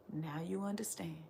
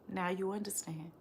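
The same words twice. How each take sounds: First: Whispered, much softer. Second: Said in the usual way. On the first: Real, not acted. Answering her mocking critics in a sudden whisper. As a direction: drop to a breathy whisper. Refrain whispered after laugh.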